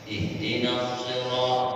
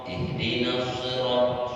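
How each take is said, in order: No difference in how they are said.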